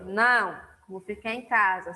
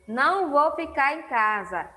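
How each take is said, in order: First: There is a pause after the first word. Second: There is no pause after the first word. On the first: The answer is no, and the speaker will stay home. "Com a vírgula" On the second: The speaker will not stay home. "Sem vírgula"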